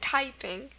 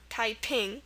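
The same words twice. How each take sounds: First: The stress is on the first syllable. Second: The stress is on the second syllable. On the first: It is the ordinary English word for using a keyboard. The speaker calls it right. "in our English word typing, the stress is on the first syllable. It's typing" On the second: It is the name of a Chinese rebellion. The speaker calls it wrong. "not typing"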